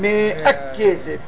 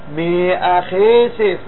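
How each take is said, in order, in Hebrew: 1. המילה השנייה מתחילה בצליל כ' דגושה. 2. המילה השנייה מתחילה בצליל כ' רפה. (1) "לא אומרים מהכסף" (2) "נסוג אחור אבל הכף רפה"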